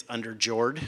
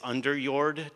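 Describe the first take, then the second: First: Underjord said the American way, UN-der-jord, hard English j; American pronunciation. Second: Underjord with a self-mocking Swedish accent attempt; Swedish pronunciation. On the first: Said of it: "and if you're American". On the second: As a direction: say underjord the Swedish way, OON-der-yoord. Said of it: "my horrible Swedish, uh, accent". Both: Shown as a demonstration.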